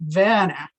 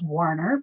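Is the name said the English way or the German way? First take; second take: German; English. First: The name is said the German way. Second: The name is said the anglicized English way. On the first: The speaker calls it right. "It should be pronounced more like Werner in the German" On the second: The speaker calls it wrong. "often mispronounced in California as Warner"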